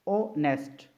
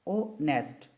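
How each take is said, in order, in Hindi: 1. शब्द की शुरुआत स्वर की ध्वनि से होती है। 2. शब्द की शुरुआत स्वर की ध्वनि से होती है।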